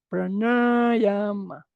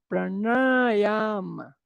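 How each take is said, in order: First: The vowels are held long, with a retroflex n. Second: The vowels are held long, with a retroflex n.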